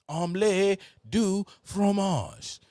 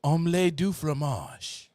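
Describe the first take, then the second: First: Loud, high, slow mock French; hammed-up French. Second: Repeated louder in a mock French accent. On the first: Answering his friend, a hammed-up high, loud mock French phrase. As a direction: stretch the phrase out big and showy. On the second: Answering his friend, a louder mock French phrase. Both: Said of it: "What does that mean?".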